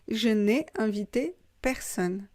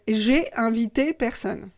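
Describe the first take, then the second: First: The negative 'ne' is clearly pronounced. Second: The negative 'ne' is left out entirely. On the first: "Ne, verbe, personne" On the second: "on ne prononce pas le ne"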